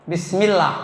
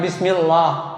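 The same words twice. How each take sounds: First: The L sound is thin and light. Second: The L sound is thick and heavy. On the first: The speaker calls it right. "harus tarkik dibacanya" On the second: The speaker calls it wrong.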